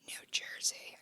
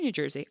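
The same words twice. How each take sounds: First: Whispered like a guilty secret; mock whisper. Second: Said in the usual way. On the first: Admitting to the co-host where she was born, mock whisper. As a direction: drop into a playful whisper. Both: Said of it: "I gotta whisper it".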